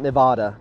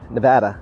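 First: It is pronounced the way outsiders say it. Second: It is pronounced the way locals say it. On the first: The speaker is not from the area. The speaker calls it wrong. "not Nevada ... we know you're not from here" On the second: The speaker is from the area. The speaker calls it right. "Nevada, not Nevada"

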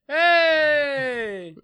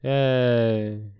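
First: It is said with enthusiasm. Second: It is said without enthusiasm.

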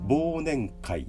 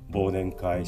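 First: It uses the standard dictionary pitch pattern. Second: It uses the casual, non-standard pitch pattern. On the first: The speaker calls it right. "これはたった1 種類しかありません" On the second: The speaker calls it wrong. "これは間違いになります"

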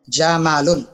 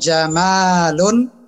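First: The vowel after the m is short. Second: The vowel after the m is long. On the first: It means camel. "Jamalun pendek" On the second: It means beautiful. "dengan mim yang saya panjangkan artinya jadi indah"

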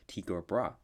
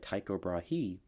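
First: The surname is pronounced differently from its spelling. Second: The surname is pronounced the way it is spelled. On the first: The speaker calls it right. "his name is apparently pronounced as Tycho Brahe" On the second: The speaker calls it wrong. "I mispronounced this astronomer's name earlier. I said Tycho Brahe. That's how it's spelled"

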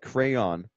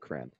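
First: The word is said with two syllables. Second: The word is said as one syllable, like crown. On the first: This is the way it is supposed to be said. "you're supposed to say it crayon, like crayon" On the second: This is the speaker's own way of saying it. "but I say crayon"

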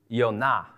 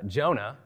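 First: The name begins with a Y sound. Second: The name begins with a J sound. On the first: This is the Hebrew form of the name. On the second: This is the English form of the name.

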